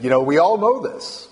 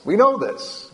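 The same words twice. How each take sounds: First: Said in the usual way. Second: "know" lifted much higher, the rest falling; stress on know. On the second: Shown as a demonstration. Preacher pressing the point home to the congregation, "know" stressed high.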